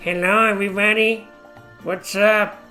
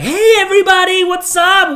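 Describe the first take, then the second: First: It is said quietly with low energy. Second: It is said loudly with high energy.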